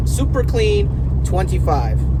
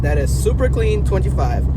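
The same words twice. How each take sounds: First: Super Clean twenty-five spelled out slowly; slow and clear. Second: Said in the usual way. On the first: Shown as a demonstration.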